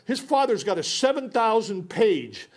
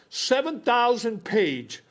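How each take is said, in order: First: Said in the usual way. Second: Seven thousand page drawn out slowly; slow emphasis. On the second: Real, not acted. Stressing the size of the father's file, slowly. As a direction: stretch out the big number.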